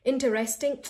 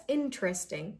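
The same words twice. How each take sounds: First: Interesting as "in-ter-est-ing"; interesting with full "ter-REST"; too many pieces. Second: Interesting as "in-tresting"; interesting without the "ter"; one go. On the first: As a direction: say interesting in four separate syllables. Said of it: "Not interesting". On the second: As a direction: say interesting in three syllables. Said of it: "Just say it in one go". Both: Shown as a demonstration.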